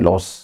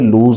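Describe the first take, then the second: First: It is said with a short vowel, like loss. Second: It is said with a long oo vowel. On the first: The speaker calls it wrong. "Most of the people इसे प्रोनाउंशिएट करते हैं लॉस, नहीं" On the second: The speaker calls it right. "L O S E का उच्चारण भी लूज ही है"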